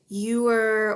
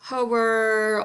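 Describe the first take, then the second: First: It sounds like the English word 'ewer'. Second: It sounds like the English word 'hour'. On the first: "Some people pronounce it ewer" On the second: "or hour, ... but those are incorrect"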